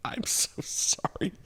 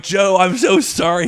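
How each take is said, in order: First: Sheepish whisper, high; whispered apology. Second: High, loud, over-the-top sorry; loud apology. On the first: Comedian whispering sorry to the company president. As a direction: whisper it like a scolded kid. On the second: Comedian apologizing to boss Joe, loud and high. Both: Retold or imitated.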